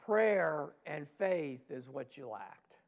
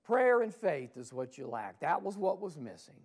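First: Slow, deliberate stress on prayer; slow emphatic answer. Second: Louder repeat. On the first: Jesus answering the disciples, slow and deliberate. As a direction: lay out each word slowly. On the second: Jesus repeating to the disciples, louder and firmer. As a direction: repeat it louder, punching Prayer. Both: Acted. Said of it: "And Jesus says".

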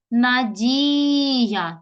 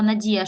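First: "Надія" with a long held ді; stress on І. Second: Said in the usual way. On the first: Shown as a demonstration. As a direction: call out "Надія", stretching the stressed і. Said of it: "Наголос падає на І". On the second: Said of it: "щоб поставити наголос".

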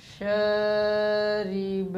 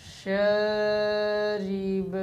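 First: शरीब stretched slowly, ending on a stopped b; pause form. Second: शरीब drawn out and closed on b; pause form repeated. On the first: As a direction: hold शरीब long and stop on the b. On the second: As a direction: recite शरीब slowly with a stopped ending. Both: Shown as a demonstration. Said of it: "वक्फ".

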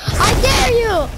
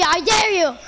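First: Higher, louder and slow, stretching the "dare"; taunting dare. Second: Said in the usual way. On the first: Real, not acted. Gamer goading an enemy to attack, slow loud taunt. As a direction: goad them, drawing the dare out.

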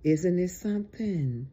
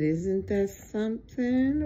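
First: Said in the usual way. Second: Higher pitch climbing on "something"; wondering question, lifted up to "something"; emphatic repeat. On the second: Real, not acted.

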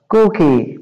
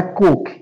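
First: Cookie with long \"oo\" and final \"ee\". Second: Cook said short, no final \"ee\". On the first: Teacher contrasts cookie with cook, careful pronunciation. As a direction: say Cookie as KOO-kee, not cook. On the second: Teacher shows the wrong form cook, contrasting pronunciation. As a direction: say cook clipped, one syllable. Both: Shown as a demonstration. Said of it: "não é cook".

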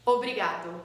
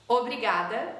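First: Obrigado with a final "o" sound; ending in O. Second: Obrigada with a final "a" sound; ending in A. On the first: Teacher models the man's form, obrigado ending in O. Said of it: "you finish with O". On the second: Teacher models the woman's form, obrigada ending in A. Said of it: "you finish with A". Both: Shown as a demonstration.

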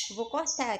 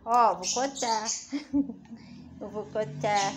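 First: Said in the usual way. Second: Loud, slow mock warning to the bird; playful loud warning; mock threat. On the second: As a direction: drag it out, pretending to threaten.

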